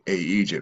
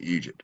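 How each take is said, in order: First: An extra vowel sound comes before the word. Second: The word starts directly, with no extra vowel. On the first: The speaker calls it wrong. "we don't pronounce it A Egypt" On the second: The speaker calls it right. "We still just pronounce it Egypt"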